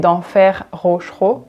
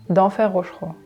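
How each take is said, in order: First: The two words are said separately and distinctly. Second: The two words are run together like one word. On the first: "we don't say" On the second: "It almost becomes one word"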